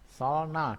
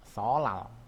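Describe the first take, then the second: First: An l sound is followed by an n sound. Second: The n becomes an l sound. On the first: This is how it is written. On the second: This is how it is actually read.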